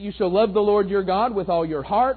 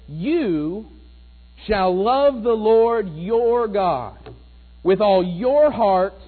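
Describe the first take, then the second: First: The emphasis falls on the word heart. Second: The emphasis falls on the word your. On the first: The focus is on what kind of love is owed. "that's where we often put the emphasis in that verse, isn't it? With heart" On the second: The duty to love is a personal, individual responsibility. "I want to put the emphasis in a slightly different place"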